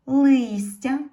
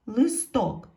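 First: "листя" high and loud, with a stressed и; "листя" with the weight on the first syllable. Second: "листок" loud, stressed on ток; "листок" with the weight on the last syllable; stress on second syllable. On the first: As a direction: punch лис in "листя", ending on a rise. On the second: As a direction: say "листок" with the beat at the end, и unstressed. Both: Shown as a demonstration. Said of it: "стали наголошеними".

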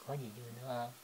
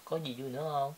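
First: Much softer, hushed repeat of the question; gently repeating the question much more quietly. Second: Said in the usual way. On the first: Real, not acted. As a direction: ask again, barely above a breath.

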